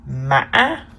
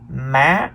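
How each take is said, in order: First: The pitch is high with a break. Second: The pitch rises high on the syllable. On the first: "The fifth tone is called the high broken tone" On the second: "The third tone is the high rising tone"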